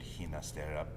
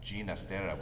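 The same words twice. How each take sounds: First: The first G has the Spanish sound. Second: The first G sounds like English J. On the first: The speaker calls it wrong. "not with the Spanish uh, pronunciation" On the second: The speaker calls it right. "with a G like George to reflect his Italian heritage"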